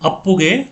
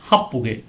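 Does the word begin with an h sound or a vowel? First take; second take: vowel; h sound. First: The word begins directly with a vowel. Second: The word begins with an h sound. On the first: The speaker calls it right. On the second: The speaker calls it wrong.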